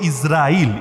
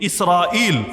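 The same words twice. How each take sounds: First: The consonant after the first vowel is z. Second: The consonant after the first vowel is s. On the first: "যদি আমরা বলি ইসরাইল, ইজ" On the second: "মূল উচ্চারণ হলো ইস, সিন"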